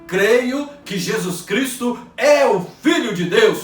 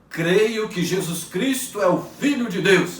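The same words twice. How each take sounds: First: It is said very loudly and strongly. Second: It is said at normal volume.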